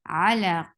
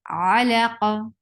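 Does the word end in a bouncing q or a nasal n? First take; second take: nasal n; bouncing q. First: The word ends with a nasal n sound. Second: The word ends with a bouncing echo on q. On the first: The reading continues without stopping. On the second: The reader stops on this word.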